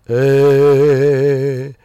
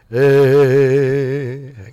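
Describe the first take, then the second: First: The voice sounds open and resonant. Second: The voice sounds open and resonant.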